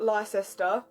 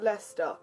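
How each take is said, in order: First: The word is said with three syllables. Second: The word is said with two syllables. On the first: The speaker calls it wrong. "to other people, yes, it does have three syllables" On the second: The speaker calls it right. "to us it has two"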